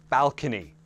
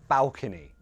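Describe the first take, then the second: The two takes are said the same way.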